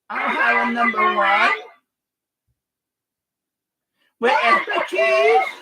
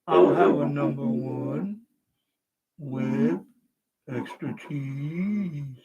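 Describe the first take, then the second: First: The voice is changed by a non-monster effect. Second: The voice is changed into a monster voice. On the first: "Lolly voice" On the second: "Monster voice"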